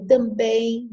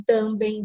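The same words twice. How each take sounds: First: "também" stressed on the final -bém; stress on last syllable. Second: "também" stressed on the first syllable, TAM-bem; misplaced stress. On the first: Teacher showing the required reading, final stress on "também". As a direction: land on the end of "também". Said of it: "eu sou obrigada a dizer". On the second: Teacher showing the wrong reading, first-syllable stress on "também". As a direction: hit the start of "também", weak ending. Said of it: "Não também". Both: Shown as a demonstration.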